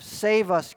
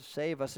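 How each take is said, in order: First: Mock shout. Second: Said in the usual way. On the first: Preacher showing how the crowd cried to the king, mild shout. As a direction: lift "Save us" into a crowd's cry. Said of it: "a shout of". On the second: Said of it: "It's an imperative word".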